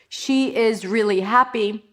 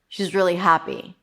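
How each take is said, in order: First: She is is said as two full words. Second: She is is contracted into one syllable. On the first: The speaker calls it wrong. "Doesn't have the same impact as she's really happy" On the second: The speaker calls it right. "Happy. That's the stress word"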